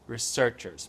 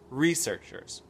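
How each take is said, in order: First: It is said with a British pronunciation. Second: It is said with an American pronunciation. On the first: "Et ça, c'est anglais" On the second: "Moi, je dirais researchers"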